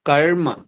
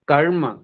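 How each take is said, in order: The two takes are said the same way.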